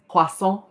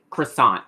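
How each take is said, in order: First: "croissant" with throaty French R, silent T. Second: "croissant" said the English way, R fully sounded; anglicized CROISSANT. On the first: Showing friends how France says "croissant", French pronunciation. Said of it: "we, we say croissant". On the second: Showing friends how not to say "croissant", anglicized. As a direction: say "croissant" with a hard English R and final T. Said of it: "we don't say croissant". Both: Shown as a demonstration.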